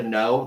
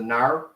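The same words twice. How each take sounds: First: Said in the usual way. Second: "nar" as an attempted Australian "no"; Australian accent. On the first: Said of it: "I can't hit the no, the nar". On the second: Shown as a demonstration. Showing the Australian no they can't hit, mock Australian "nar". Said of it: "I can do a pretty good Australian".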